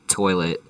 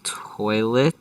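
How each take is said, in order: First: Said in the usual way. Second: TOILET drawn out with a high rising question; puzzled, stretched-out "toilet?". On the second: Real, not acted. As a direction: say "toilet" slowly, rising as if unsure of the word. Unsure of the word.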